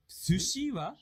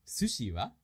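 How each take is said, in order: First: Slow, higher-pitched question; slow, awkward reading. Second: Natural-paced short question; full speed. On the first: Teacher asking in a sample conversation, slow and higher. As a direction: draw out "Sushi wa" high. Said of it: "that was a little awkward". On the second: Teacher rereading a sample conversation at full speed. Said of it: "read that at a full speed". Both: Shown as a demonstration.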